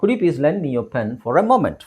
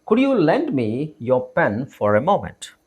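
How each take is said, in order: First: Said in the usual way. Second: Slow, separated phrases for repeating; slow model reading. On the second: Shown as a demonstration. Teacher models asking to borrow a pen, slowly and deliberately. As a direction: say it slowly so learners can follow. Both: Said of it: "ನನ್ನ ಜೊತೆಗೆ ಹೇಳಕ್ try ಮಾಡಿ".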